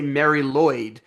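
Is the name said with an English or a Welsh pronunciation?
English. The name is said with English sounds. The speaker calls it wrong.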